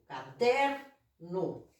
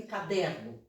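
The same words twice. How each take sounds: First: Caderno drawn out very slowly, DER leaned on; slow it right down and hit DER in caderno; teacher stretching caderno to show the stressed syllable; stressed syllable shown. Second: Said in the usual way. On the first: Shown as a demonstration. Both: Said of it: "Sílaba tônica de caderno".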